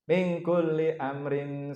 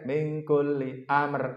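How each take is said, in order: First: The last word ends with an '-in' sound. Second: The last word stops short on 'r'. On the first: The speaker calls it wrong. "tapi kurang tepat" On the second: The speaker calls it right. "gitu yang tepat"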